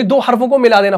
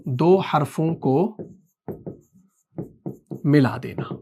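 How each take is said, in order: First: Said in the usual way. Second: Slower and softer, in separate chunks; word-by-word for note-taking; slow dictation. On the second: Shown as a demonstration. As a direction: dictate with a long pause mid-phrase. Dictating the definition for notes.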